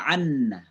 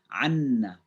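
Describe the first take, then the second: Both takes have the same delivery.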